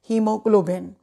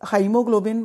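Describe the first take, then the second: First: The first syllable sounds like 'hee'. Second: The first syllable sounds like 'high'. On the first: The speaker calls it right. "ए silent है" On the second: The speaker calls it wrong. "बोलने की कोशिश नहीं करनी"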